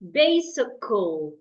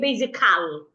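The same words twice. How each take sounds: First: The A is a weak, lazy, closed vowel. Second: The A is a strong, open, energetic vowel. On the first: The speaker calls it right. "you need to act lazy" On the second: The speaker calls it wrong. "Do not act strong by opening your mouth and using all your energy"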